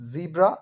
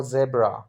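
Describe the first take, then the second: First: "zebra" said as ZEE-bra; "zebra" starting like "zee"; first pronunciation option. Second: "zebra" said as ZEB-ra; "zebra" starting like "zeb"; second pronunciation option. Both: Shown as a demonstration. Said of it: "So you tell me".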